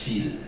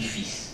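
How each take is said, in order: First: The word ends with an l sound. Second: The word ends with an s sound. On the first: It means threads. "ça s'écrit de la même manière, mais on prononce fil" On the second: It means a male child. "Mon fils, F-I-L-S, on dit fils"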